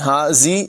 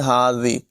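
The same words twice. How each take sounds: First: The middle consonant is a hissing z sound. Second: The middle consonant is a soft th sound. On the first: The speaker calls it wrong. "हाजी जी नहीं पढ़ेंगे" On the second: The speaker calls it right. "बल्कि हाजी"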